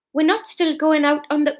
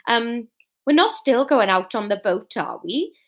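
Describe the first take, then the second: First: Put-on Fiona's line in a light Geordie accent. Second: Put-on Fiona's line in a light Welsh accent. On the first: Fiona asking Norman, lightly in Geordie accent. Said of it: "no, that's Geordie". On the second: Fiona asking Norman, lightly in Welsh accent. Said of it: "That's how you do Welsh".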